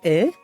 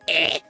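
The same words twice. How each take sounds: First: It is a plain, light exclamation. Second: It is a forceful, strained exclamation.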